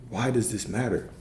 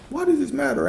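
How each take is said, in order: First: Said in the usual way. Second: High sing-song question. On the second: Real, not acted. Coach calling out to Alex in a high sing-song. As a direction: pitch leaps way up on "does".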